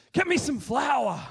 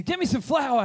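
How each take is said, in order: First: Higher and louder, slow firm command; commanding order. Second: Commanding order. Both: Retold or imitated. Elisha ordering the people to bring flour, commanding.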